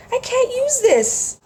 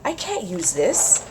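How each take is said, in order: First: Much higher, louder, slow squeal. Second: Said in the usual way. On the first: Real, not acted. Vlogger gushing over rice paper, high squeal. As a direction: squeal it in delight.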